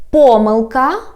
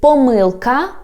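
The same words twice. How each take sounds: First: "pomyłka" with a strong first syllable, PO-; front-stressed "pomyłka", rising at the end. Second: "pomyłka" stressed on MYŁ; stress on second syllable. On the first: Teacher giving the first variant, "pomyłka" stressed on PO. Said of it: "a word has two stresses". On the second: Teacher giving the alternative, "pomyłka" stressed on MYŁ. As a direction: lean on the middle syllable of "pomyłka". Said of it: "or you can say". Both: Shown as a demonstration.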